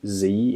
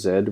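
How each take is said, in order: First: It is said the American way, as zee. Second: It is said the Australian way, as zed.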